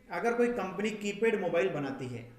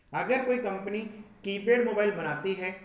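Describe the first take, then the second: The two takes are said the same way.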